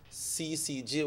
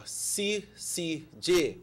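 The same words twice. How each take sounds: First: Said in the usual way. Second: C C J said very slowly, letter by letter; slower. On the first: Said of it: "we have to say it". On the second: Shown as a demonstration. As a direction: spell out C C J slowly and higher. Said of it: "say it a little bit slower".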